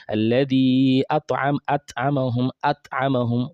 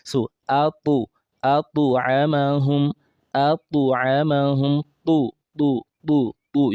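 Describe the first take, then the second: First: At'amahum with a flat t and no echo; at'amahum, the t dead with no bounce; wrong ta without echo. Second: Slow at'amahum, the t bounced forward; at'amahum with a clear tu echo, slowly; correct ta with echo. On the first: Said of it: "you did not pronounce the ta properly". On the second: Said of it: "You can see where the tip of the tongue is eating". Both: Shown as a demonstration.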